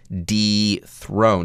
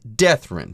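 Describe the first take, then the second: First: The first syllable is the separate prefix 'dee'. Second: The first syllable sounds like 'death'. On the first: The speaker calls it right. "here it would be dethroned" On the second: The speaker calls it wrong. "You don't run the pronunciation together and say something silly like deathroned"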